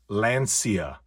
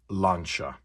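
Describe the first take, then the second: First: The middle consonant sounds like 's'. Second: The middle consonant sounds like 'ch'. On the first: The speaker calls it wrong. "it is not pronounced Lancia" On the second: The speaker calls it right. "It is pronounced Lancia"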